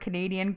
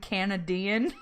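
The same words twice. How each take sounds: First: The first syllable is not said like 'can'. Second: The first syllable is said like 'can'. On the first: The speaker calls it right. "the word Canadian" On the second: The speaker calls it wrong. "Opening up a can of tea"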